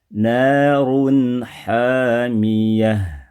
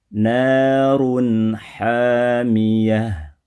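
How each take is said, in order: Both takes have the same delivery.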